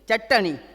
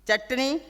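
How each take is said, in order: First: That same sound is pronounced fully. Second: One sound is cut short, said only halfway. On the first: This is the Rajasthani form. "हुते सॼो थो थिए" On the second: This is the Sindhi form. "असां वटि हलंत थो लॻे, अधु चार थो थिए"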